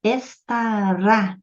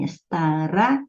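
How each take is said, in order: First: "Estará" devagar, sílaba por sílaba, com peso no RÁ; última sílaba tônica. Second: Said in the usual way. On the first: Shown as a demonstration. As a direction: estique o RÁ final de "Estará". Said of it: "estará é uma oxítona". ("Estará" escandido, terminando no RÁ prolongado) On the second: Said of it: "a última sílaba é tônica".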